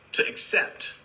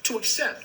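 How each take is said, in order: First: Breathy whisper of the word accept; hushed, voiceless "to accept". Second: "To accept" said higher, rising on to; lifted repeat. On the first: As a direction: let "to accept" fall away into a whisper. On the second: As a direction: repeat "To accept" up high for emphasis. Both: Shown as a demonstration.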